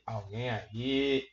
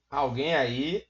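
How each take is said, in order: First: Slow, soft, lower "Alguém aí?" stretched out; drawn-out quiet call. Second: Said in the usual way. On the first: Pretend. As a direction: ask "Alguém aí?" slowly and softly, as if into an empty room. Calling out to empty live chat. (chamando baixinho e devagar)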